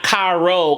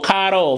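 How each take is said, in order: First: The R is not a quick tap. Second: The R is a quick flipped tap. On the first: The speaker calls it wrong. "not caro" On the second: The speaker calls it right. "flipped R"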